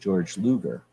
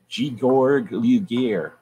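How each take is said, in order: First: The name is pronounced the English way. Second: The name is pronounced the German way. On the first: The speaker calls it wrong. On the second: The speaker calls it right.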